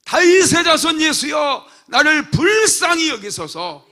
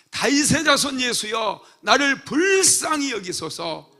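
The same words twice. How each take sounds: First: Desperate full shout, much higher and louder; louder desperate cry for mercy. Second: Pleading cry, higher and louder, slowing on 불쌍히; a blind beggar crying out for mercy; loud slow plea. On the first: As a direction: scream it over the crowd, slow on 불쌍히. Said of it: "소리를 질러대는 거야". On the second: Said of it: "소리를 지르잖아요". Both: Acted.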